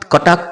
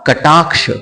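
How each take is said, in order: First: The word has Bengali-style pronunciation. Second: The word has Sanskrit-style pronunciation. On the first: The speaker calls it wrong. "কটাক্ষ নয়" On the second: The speaker calls it right. "সংস্কৃত শুদ্ধ উচ্চারণ করতে হবে"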